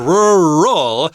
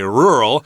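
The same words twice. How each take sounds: First: The word is said with two syllables. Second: The word is said with one syllable. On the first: The speaker calls it right. "rural is two syllables" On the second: The speaker calls it wrong. "it sounds like one syllable"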